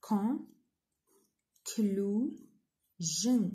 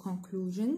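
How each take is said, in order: First: "Conclusion" in three separate beats, long pauses between; split into syllables. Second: Said in the usual way. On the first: Shown as a demonstration. Teacher dividing a word for students, "Conclusion" syllable by syllable. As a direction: break "Conclusion" syllable by syllable: con, clu, sion. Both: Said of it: "نقسموها into syllables".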